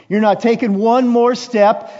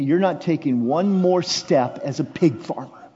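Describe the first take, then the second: First: High, loud, insistent; loud fatherly declaration. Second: Said in the usual way. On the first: Acted. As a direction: raise it to a protective cry. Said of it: "repeated louder". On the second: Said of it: "repeated line".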